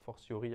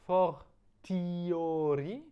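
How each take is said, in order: First: It is pronounced the way French speakers say it. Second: It is pronounced the classical Latin way.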